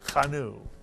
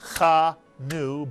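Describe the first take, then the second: First: The first vowel is very short and reduced. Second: The first vowel is a full vowel. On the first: The speaker calls it right. "but chanu. It's like a grace note" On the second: The speaker calls it wrong. "Not chanu"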